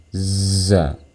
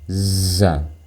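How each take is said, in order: First: The z sound comes with audible breath. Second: The same.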